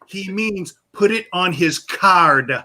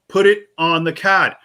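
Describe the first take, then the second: First: Slow, higher, "card" with full r and hard D; exaggerated r and final D on "card". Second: Slow, separated words, "card" as "cahd"; patient repeat with Boston "card"; slow New England "card". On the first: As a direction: translate slowly, over-pronouncing "card". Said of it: "pronounce it out with the hard D". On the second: Retold or imitated. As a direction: spell it out slowly, r-less "card". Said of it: "how much of an accent you have".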